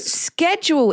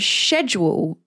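First: It is said with an American pronunciation. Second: It is said with a British pronunciation. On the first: "schedule is actually American" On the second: "schedule is British"

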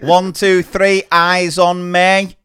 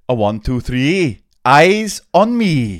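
First: It is said in a Manchester accent. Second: It is said in a Welsh accent.

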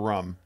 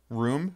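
First: The word is said in a Boston pronunciation. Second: The word is said in a standard pronunciation. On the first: "That's how she says it from Boston" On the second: "Room or rum?"

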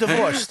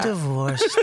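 First: The word is said plainly and neutrally. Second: The word is said sadly and dramatically. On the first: It is simply a fact. The speaker calls it right. "how about just divorced?" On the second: It is meant to make everyone sad. The speaker calls it wrong. "Not divorced"

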